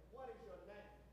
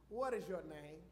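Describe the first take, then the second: First: Softer, hushed "What is your name?"; hushed God asking Jacob; quiet question. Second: Lower, firm question with "What" leading; lightly voiced God questioning Jacob; God asking. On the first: Retold or imitated. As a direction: ask it gently with "What" in front. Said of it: "God is asking Jacob". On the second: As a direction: ask "What is your name?" low, stressing "What". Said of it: "he said to him".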